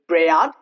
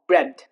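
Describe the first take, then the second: First: The A is pronounced. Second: The A is silent. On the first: The speaker calls it wrong. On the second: The speaker calls it right.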